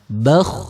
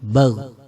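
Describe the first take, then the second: First: It ends in a rough, voiceless kh sound. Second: It ends in a voiced gh sound. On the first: The speaker calls it right. "suara kha yang disukun" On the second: The speaker calls it wrong. "suara ghin yang disukun"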